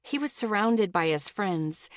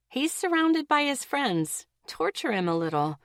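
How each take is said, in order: First: Said in the usual way. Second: Much higher, mischievous He's surrounded by his friends; devilish inner voice. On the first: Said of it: "repeated as twisted side". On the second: A narrator's reading. Her twisted side urging her to tease him, high and mischievous. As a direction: tease it like a little devil on the shoulder. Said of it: "my twisted side was saying".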